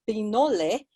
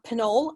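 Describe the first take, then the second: First: The name is pronounced the Spanish way. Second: The name is pronounced the English way. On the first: "but it is Pinole, which um, originates from uh, uh, Spanish" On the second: "so that's the anglicized pronunciation"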